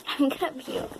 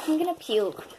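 First: Disgusted, about to gag. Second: High, queasy disgust; disgusted, about to gag. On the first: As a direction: let the nausea linger. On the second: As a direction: say it like you might gag. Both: Real, not acted. Reacting to nasty candy.

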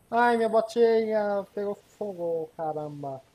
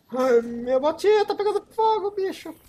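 First: Said in the usual way. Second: Alarmed. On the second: Real, not acted. Boot on fire in game.

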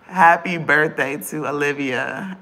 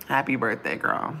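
First: Louder, slow "Happy birthday to Olivia"; loud birthday wish. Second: Said in the usual way. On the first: Real, not acted. Birthday shoutout, loud take.

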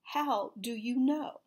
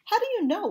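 First: "How do you know?" slow, each word stressed; emphatic repeat. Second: Loud, high-pitched challenge; demanding. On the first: Insistent repeat of the question. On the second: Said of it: "Penny demanded". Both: A narrator's reading.

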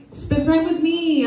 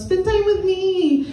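First: High, slow whiny plea for attention; whiny needy kid. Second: Even higher, slow needy whine; clingy girlfriend whine. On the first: A child whining at mom's new boyfriend, high and slow. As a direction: drag it out like a clingy child. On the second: A clingy girlfriend whining at her date, high and drawn out. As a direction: beg for time, pouting. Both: Acted.

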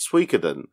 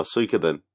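First: Suikoden opening on a single "swee" syllable; Suikoden as Swee-koden. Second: Suikoden opening with "soo" before the k; Suikoden as Soo-ee-koden. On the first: Co-host offers one way to say the game title, Suikoden as Swee-koden. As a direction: say Suikoden with SW run together. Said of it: "Do you pronounce it". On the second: Co-host offers the other way to say the title, Suikoden as Soo-ee-koden. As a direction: say Suikoden like Japanese suika. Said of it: "Do you pronounce it Suikoden or Suikoden". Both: Shown as a demonstration.

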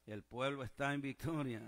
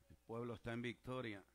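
First: Emphatic congregational declaration; emphatic repeat. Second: Said in the usual way. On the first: Real, not acted. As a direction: drive home "está en victoria" with more force. Same declaration repeated with more force.

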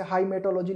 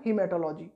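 First: हाइमेटोलॉजी with a long "hai" as it is written; spelling-based reading. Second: हीमेटोलॉजी with the first syllable "hee"; correct pronunciation. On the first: Teacher showing students the written form, said "hai-matology". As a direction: read हाइमेटोलॉजी letter by letter, starting with "hai". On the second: Teacher correcting the reading for exam students, "hee-matology". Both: Shown as a demonstration. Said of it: "लेकिन उसे बोलते क्या है".

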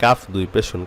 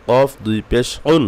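First: Said in the usual way. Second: "কফ" and "উন" with q from the back of the throat; heavy qaf. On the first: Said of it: "কাফ দুই পেশ একবার পড়েন". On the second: Shown as a demonstration. Teacher telling pupils to work at qaf, heavy "কফ ... উন". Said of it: "কফটাকে মেহনত করেন".

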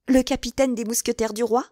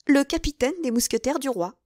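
First: "Le capitaine des mousquetaires du roi" rising at the end; "roi" pitched upward as a question. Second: "Le capitaine des mousquetaires du roi" starting high, falling to a close; "capitaine" high, then down to "roi" as a statement; confirming. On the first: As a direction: ask it with "roi" lifted into a question. Novice questions, milady confirms. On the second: Same words given as confirmation. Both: Acted.

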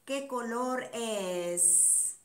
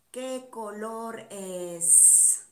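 First: Slow teacher question. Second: Very slow question. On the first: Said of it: "asks class slowly". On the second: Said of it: "asks slower again". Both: Shown as a demonstration.

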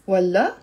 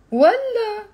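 First: والله low, rising at the end; questioning والله. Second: والله high and loud; scornful refusal. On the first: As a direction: ask والله as "really?". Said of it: "Look at the tone of my voice, how it changes things". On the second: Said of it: "Look at the tone of my voice". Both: Shown as a demonstration.

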